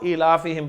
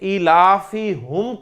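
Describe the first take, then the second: First: The vowel after h sounds like i. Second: The vowel after h sounds like u. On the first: The speaker calls it right. "इलाफी हिम पढ़ा जा रहा है" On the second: The speaker calls it wrong. "इलाफी हुम को इलाफी हिम पढ़ा जा रहा है"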